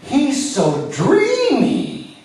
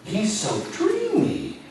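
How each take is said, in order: First: Much higher, slow swooning squeal; hammed-up fangirl swoon; swooning fan. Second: Much higher, slow dreamy sigh; swooning fan. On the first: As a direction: gush like a starstruck fan. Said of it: "you're gonna scream". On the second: Retold or imitated. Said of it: "nod your head".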